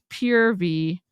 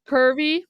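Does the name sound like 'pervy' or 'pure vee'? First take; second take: pure vee; pervy. First: It is said as two words, 'pure vee'. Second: It is said as one word, 'pervy'. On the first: The company's intended name. "Apparently it's pure V" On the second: A mocking nickname for the company. "Pervy is what we're calling it"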